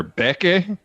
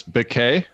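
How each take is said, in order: First: "[name]" said as BEK-ay; stress on first syllable. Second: "[name]" said as bih-KAY; stress on second syllable. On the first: Co-host offering another reading of a band's name, "[name]" stressed up front. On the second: Co-host offering one reading of a band's name, "[name]" stressed at the end. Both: Shown as a demonstration. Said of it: "there's an accent on the first syllable".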